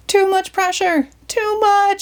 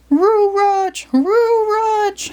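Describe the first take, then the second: First: Much higher panicked yell; Shaggy yelling. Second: Much higher dog voice, R for T and M; Scooby crying out. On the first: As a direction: cry out as the hose lifts you. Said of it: "Shaggy yelled". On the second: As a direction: howl "Roo Rutch" like a cartoon dog. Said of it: "Scooby cried". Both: Acted.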